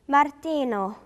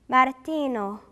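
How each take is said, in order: No difference in how they are said.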